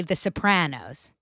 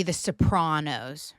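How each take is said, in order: First: Sopranos with a short flat A, so-PRAN-os; local pronunciation. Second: Sopranos with AH, so-PRAH-nos; standard pronunciation. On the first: Podcaster shows how we say it, so-PRAN-os. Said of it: "But we say". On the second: Podcaster shows how it's supposed to be, so-PRAH-nos. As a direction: say Sopranos with a broad open A. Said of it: "it's supposed to be". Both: Shown as a demonstration.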